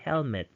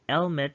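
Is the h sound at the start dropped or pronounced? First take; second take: pronounced; dropped. First: The word begins with a clear h sound. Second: The word begins without an h sound. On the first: The speaker calls it right. "you should say helmet" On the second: The speaker calls it wrong. "Instead of saying helmet"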